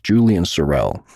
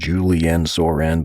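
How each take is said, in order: First: The surname ends with an L sound. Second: The surname ends with an N sound. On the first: The speaker calls it right. "but it's Julian Sorrell" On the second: The speaker calls it wrong. "I mispronounced his name"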